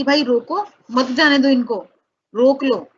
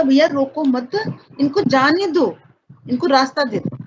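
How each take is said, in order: First: भाई रोको as one command, then मत जाने दो इनको together; break after रोको. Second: रोको मत as one unit, pause, then इनको जाने दो; break after मत. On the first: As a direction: split after रोको, urging them to stop. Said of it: "वो आरोप क्या कह रहा था". (रोको के बाद विराम, मत जाने दो के साथ) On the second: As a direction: keep मत with रोको, a separate plea on जाने दो. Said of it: "जो स्वतंत्रता सेनानी ने कहा". (रोको मत के बाद विराम, फिर इनको जाने दो) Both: Shown as a demonstration.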